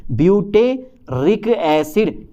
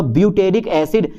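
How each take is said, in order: First: "butyric acid" drawn out syllable by syllable; very slow "butyric acid", split into its parts; slow dictation. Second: Said in the usual way. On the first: Shown as a demonstration. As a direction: stretch out "butyric acid" for note-takers. Teacher repeats it slowly for students.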